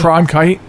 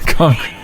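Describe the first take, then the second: First: The R comes right after the C sound. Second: The R comes after the N, like concrete. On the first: The speaker calls it right. "So I put the R in the wrong place" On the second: The speaker calls it wrong. "I said concrete"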